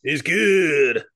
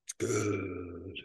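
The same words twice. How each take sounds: First: Loud, drawn-out "good"; mock-enthusiastic echo, pushing out GOOD; hammed-up catchphrase. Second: Very low, hushed, drawn-out "good"; spooky Halloween voice. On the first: Co-host echoing the beer verdict, hammed-up and loud. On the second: Pretend. Beer verdict redone for Halloween time, mock-spooky. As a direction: creep it out like a mock horror host. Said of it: "because it's Halloween time".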